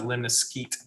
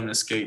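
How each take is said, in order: First: The last syllable does not sound like 'eight'. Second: The last syllable sounds like 'eight'. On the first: This is the pronunciation the reference gives. "it says you pronounce it lemniscate" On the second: This is the speaker's own habit, because the shape looks like an eight. "I call it lemniscate because it looks like an eight"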